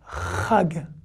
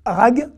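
First: It begins with a guttural ch sound. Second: It begins with a plain R sound. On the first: The speaker calls it right. "c'est rag" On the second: The speaker calls it wrong. "vous dites rag, rag, non ça va pas"

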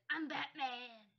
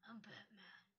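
First: The put-on character voice is weak and unconvincing. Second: The put-on character voice is strong and convincing. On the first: The speaker calls it wrong. "Oh wait, I can't do his voice hardly" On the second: The speaker calls it right. "Oh my gosh, that was awesome!"

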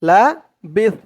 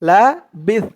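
Both takes have the same delivery.

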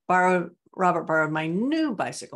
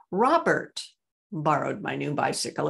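First: The word 'new' is stressed. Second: The word 'Robert' is stressed. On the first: It was the new bicycle and not the old one. "not my old one" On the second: It was Robert and not someone else. "It was Robert, not Raymond"

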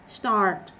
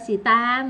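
First: It is one syllable ending in a clipped t. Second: It is two syllables with a vowel after s. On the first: The speaker calls it right. "Phía cuối có âm tờ, đọc gắt lại" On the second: The speaker calls it wrong. "Chắc chắn không phải xì ta được rồi"

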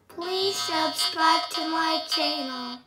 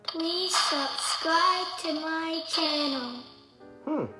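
First: The voice is processed with a rock effect. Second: The voice is processed with an echo effect. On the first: "Last one, rock and roll"

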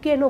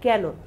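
First: The first vowel sounds like a plain 'e'. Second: The first vowel sounds like 'a' in 'cat'. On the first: The speaker calls it wrong. "আমরা কিন্তু কেন বলি না" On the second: The speaker calls it right. "আমরা বলি কেন"

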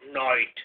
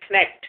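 First: The word is pronounced the English way. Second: The word is pronounced the French way. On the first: "in English we pronounce him Knight" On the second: "French mein Knight"

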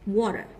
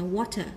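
First: The middle t sounds like a soft d. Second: The middle t is a clear t sound. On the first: "Nếu theo Anh Mỹ chúng ta đọc là âm d thành water" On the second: "Còn nếu Anh thì chúng ta cứ đọc là water bình thường"

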